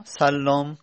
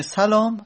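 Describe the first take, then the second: First: سلام said as sallam, holding a doubled l. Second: سلام said as salam, raised and louder, short single l. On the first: Teacher contrasting spellings for students, doubled l. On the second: Teacher contrasting spellings for students, single l. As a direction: give سلام as plain salam, no doubling. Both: Shown as a demonstration.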